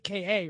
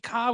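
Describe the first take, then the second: First: The name is spelled out as two letters. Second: The name is said as a single syllable. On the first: The speaker calls it wrong. "we don't say K A" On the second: The speaker calls it right. "We say Ka"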